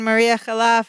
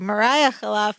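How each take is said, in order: First: The first name's stressed vowel sounds like 'ee'. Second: The first name's stressed vowel sounds like 'eye'. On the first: The speaker calls it wrong. "we've been pronouncing it wrong this whole time" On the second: The speaker calls it right. "just like [name]"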